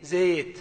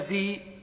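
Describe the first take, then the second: First: The first vowel sits between a and i. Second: The first vowel is a fully close i. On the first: The speaker calls it right. "يقولون زي زيت، هذه إمالة" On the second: The speaker calls it wrong. "ولا زي"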